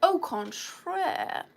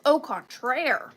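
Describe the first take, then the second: First: Very slow, higher mock-French au contraire; hammed-up French au contraire; drawn-out mock French. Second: Slow mock-French au contraire; lightly hammed French au contraire. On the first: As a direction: stretch it out snootily. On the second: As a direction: savour it like a snooty Frenchman.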